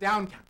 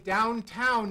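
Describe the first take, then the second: First: The final sound is dropped. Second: The final sound is fully pronounced. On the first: The speaker calls it wrong. "drop the ends of words" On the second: The speaker calls it right. "finish the ends of words"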